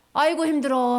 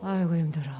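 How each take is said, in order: First: Louder, heaving "아이고, 힘들어" with a groan on 아이고; exhausted worker groaning; tired groan demo. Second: Tired worker sighing; weary sigh demo. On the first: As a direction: show the kids the worn-out face and sigh. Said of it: "한번 해보자". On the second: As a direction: sigh it out like you're drained. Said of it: "한번 해보세요". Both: Shown as a demonstration.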